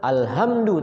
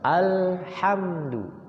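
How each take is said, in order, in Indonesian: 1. Bunyi h itu bunyi ringan dan berhembus. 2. Bunyi h itu bunyi kasar dan dari tenggorokan. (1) "Bukan alhamdu" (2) "tapi apa? ... kembali huruf ha"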